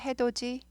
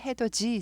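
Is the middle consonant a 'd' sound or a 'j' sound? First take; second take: d; j. First: The middle consonant is a hard 'd' sound. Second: The middle consonant is a soft 'j' sound. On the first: The speaker calls it wrong. "해돋이 아니고" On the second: The speaker calls it right. "디귿이 부드럽게 해돋이 즈 발음 나죠"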